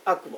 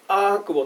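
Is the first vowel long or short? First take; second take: short; long. First: The first vowel is kept short. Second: The first vowel is held long. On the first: "アクボっていうふうにちょっと短めに読みました" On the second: "アークボとは読まないで"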